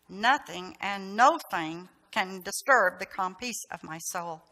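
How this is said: It is said tensely through gritted teeth.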